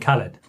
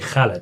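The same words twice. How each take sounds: First: It begins with a plain k sound. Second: It begins with a rough throaty kh sound. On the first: The speaker calls it wrong. "You will end up saying" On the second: The speaker calls it right. "it's actually"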